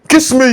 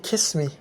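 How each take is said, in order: First: It is said in a rough, harsh voice. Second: It is said in a soft, gentle voice. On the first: It kills the romance. The speaker calls it wrong. "this kind of Agboro voice" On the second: It is romantic and arousing. The speaker calls it right. "that ringtone"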